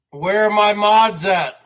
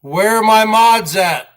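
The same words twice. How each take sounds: The two takes are said the same way.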